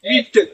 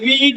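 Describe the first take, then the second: First: The word has a short i vowel. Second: The word has a long ee vowel. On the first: "విట్ అని పలకట్లేదు" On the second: "ఇక్కడ వీట్ అని పలకట్లేదు"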